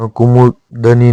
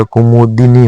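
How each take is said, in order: First: कुमुदनी with "da-nee"; incorrect form. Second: कुमुदिनी with "di-nee"; correct form. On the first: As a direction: weaken the vowel after d in कुमुदनी. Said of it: "नहीं होता". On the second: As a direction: sound the i after d in कुमुदिनी. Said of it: "होता है". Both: Shown as a demonstration.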